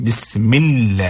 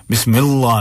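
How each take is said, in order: First: "बिस्मिल्लाह" with light l and fronted aa; thin lam. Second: "बिस्मिल्लाह" with heavy dark l; thick lam. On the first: Teacher showing it right, "बिस्मिल्लाह" with thin lam. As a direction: draw a thin "laa" in "बिस्मिल्लाह". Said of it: "बारीक पढ़ना है". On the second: Teacher showing the mistake, "बिस्मिल्लाह" with thick lam. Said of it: "नहीं". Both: Shown as a demonstration.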